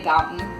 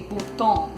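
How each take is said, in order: First: The name is said with an English pronunciation. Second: The name is said with a French pronunciation. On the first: This is how the family says it now. "we say Boughton" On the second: This follows the name's original roots. "the origins of the name, which are French"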